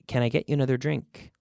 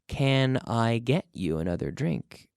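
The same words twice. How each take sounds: First: Can I is reduced and run together. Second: Can I is said fully and clearly.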